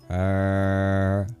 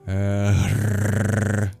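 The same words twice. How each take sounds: First: The R is a smooth vowel without rolling. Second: The R is rolled with a strong breath. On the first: "You curl your tongue back and you make a vowel sound" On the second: "It's the breath that makes it a rolled sound"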